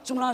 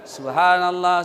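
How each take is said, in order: First: It is said very fast and slurred. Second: It is said slowly and clearly.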